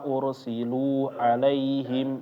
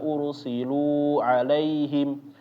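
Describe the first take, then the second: First: The long vowel is held only slightly longer. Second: The long vowel is stretched out much too long. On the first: The speaker calls it right. "cukup dipanjangin sedikit ya" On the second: The speaker calls it wrong. "itu sampai tiga ... kepanjangan"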